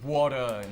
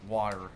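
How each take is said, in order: First: The final R sound is dropped. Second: The final R sound is pronounced. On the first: "so they'll say" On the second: "instead of"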